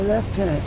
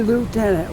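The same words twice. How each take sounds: First: The first syllable sounds like lef. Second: The first syllable sounds like loo. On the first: "we say lieutenant. There's no F in it, spelled the same way" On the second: "if you're from America, you you know, in Canada we don't say lieutenant"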